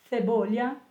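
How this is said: The c is pronounced in the Spain style.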